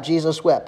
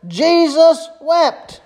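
First: Low, quiet "Jesus wept" fading down on "wept"; soft falling. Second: Very slow, drawn-out "Jesus wept" with weight on "Jesus"; slow emphatic. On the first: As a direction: let "Jesus wept" sink, almost murmured. Verse repeated after citation. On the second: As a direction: stretch each word of "Jesus wept" like a pronouncement. Preacher dwells on the verse. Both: Acted.

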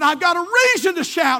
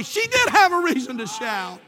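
First: High, loud joyful declaration; imitated church shouting. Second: "did" punched loud and high; stress on DID. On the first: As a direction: holler it like a shouting church lady. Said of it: "I mean, just shouting". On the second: Real, not acted. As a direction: affirm it firmly, leaning on "did". Preacher confirms the lady's claim.

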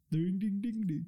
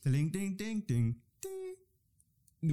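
First: Put-on Indian accent. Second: Put-on high, sing-song Indian accent jingle. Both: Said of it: "You made it in an Indian accent".

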